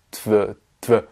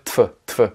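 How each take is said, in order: First: Tf said as tv, with a buzzing v; voiced V after T. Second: Tf with a voiceless f; tf, the written v devoiced to f; F after T. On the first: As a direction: keep the v voiced, tv in place of tf. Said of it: "C'est beaucoup plus simple à prononcer que". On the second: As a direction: say tf as t plus f, no buzz. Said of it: "se transforme en F à l'oral". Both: Shown as a demonstration.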